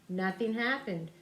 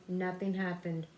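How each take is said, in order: Both takes have the same delivery.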